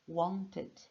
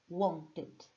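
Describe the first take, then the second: The two takes are said the same way.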